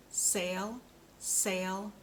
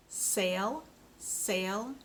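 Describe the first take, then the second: No difference in how they are said.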